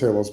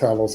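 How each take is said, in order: First: The first vowel is a short A. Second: The first vowel is a long A. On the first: "the short A" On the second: "the long A"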